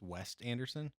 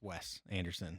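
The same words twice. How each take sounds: First: The first name ends with a T sound. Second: The first name ends without a T sound. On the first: The speaker calls it wrong. "You've been calling him West this whole time?" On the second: The speaker calls it right. "There's no T"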